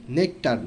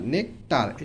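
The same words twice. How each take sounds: First: Said in the usual way. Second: nectar split in two, nek - tar; syllable by syllable. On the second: Shown as a demonstration. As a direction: put a gap in nectar after "nek". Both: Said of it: "ভেঙে ভেঙে উচ্চারণ করব".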